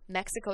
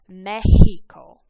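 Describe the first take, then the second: First: The word is said with English pronunciation. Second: The word is said with Spanish pronunciation. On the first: "is how we say it in English" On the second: "in Spanish it's"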